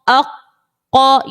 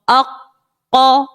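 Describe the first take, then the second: The two takes are said the same way.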